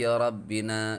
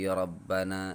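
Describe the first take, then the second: First: The vowel after rabb- is i. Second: The vowel after rabb- is a. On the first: The word is in the genitive case, as an attribute. "bil jarri" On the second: The word is in the accusative case, as a vocative. "wan nasbi bisa dibaca nasab"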